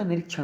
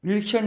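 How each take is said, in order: First: Said in the usual way. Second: निरीक्षण said "nirkshan", higher pitched; swallowed middle vowel. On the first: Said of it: "होता है". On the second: Shown as a demonstration. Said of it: "नहीं होता".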